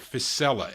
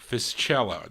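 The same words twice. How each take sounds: First: The name is pronounced the English way. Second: The name is pronounced the Italian way. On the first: "or Fiscella" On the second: "That's how you say it in Italian"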